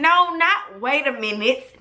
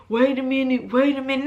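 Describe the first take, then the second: First: "not wait a minute" as a sharp retort; stress on not. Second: Lightly voiced friend stalling her; a hint of someone holding her back, "wait a minute"; mild imitation of the friend saying "wait a minute"; mock stalling friend. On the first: Retold or imitated. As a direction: throw "not" back at him.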